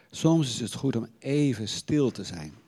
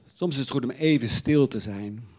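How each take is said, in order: No difference in how they are said.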